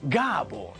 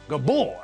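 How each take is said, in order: First: The stress is on the first syllable. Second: The stress is on the second syllable. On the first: The speaker calls it right. "It's Gábor" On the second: The speaker calls it wrong. "not Gabor"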